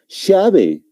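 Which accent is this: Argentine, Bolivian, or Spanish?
Argentine. It is said with an Argentine accent. "Un argentino, ¿cómo lo va a pronunciar? Lo va a decir llave"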